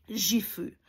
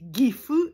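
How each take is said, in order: First: It is pronounced the French way. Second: It is pronounced the Japanese way. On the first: The speaker calls it wrong. "et non Gifu" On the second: The speaker calls it right. "on dit Gifu"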